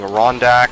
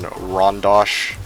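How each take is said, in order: First: The name ends with an 'ak' sound. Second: The name ends with an 'osh' sound. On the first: "Muse was saying Rondak" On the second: "British pronunciation"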